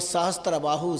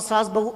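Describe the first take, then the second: First: The first word has three syllables, sa-has-tra. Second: The first word has one syllable, saas. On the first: This is the original name of the king. The speaker calls it right. "शुद्ध उच्चारण" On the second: The name ended up sounding like mother-in-law and daughter-in-law. The speaker calls it wrong. "सहस बाहु की जगह सास बहु"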